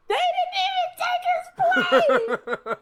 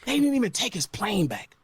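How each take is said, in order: First: Much higher, slow, yelled through a laugh; cracking up while shouting the line; laughing disbelief. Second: Said in the usual way. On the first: Real, not acted. Repeats it as laughing outburst.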